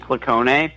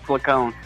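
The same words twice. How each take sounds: First: The name is said with Italian pronunciation. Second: The name is said with American English pronunciation. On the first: This is how it is said in the family's original language. "the correct Italian pronunciation would be Placone" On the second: This is how the name is used where the speaker lives. "I live in the United States, so uh, it's Placone"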